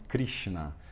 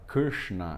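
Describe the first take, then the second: First: The r is followed by an i vowel. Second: The r sounds as a vowel, like 'er'. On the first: The speaker calls it wrong. "eles falam Krishna, mas está errado" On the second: The speaker calls it right. "em vez de falar Krishna"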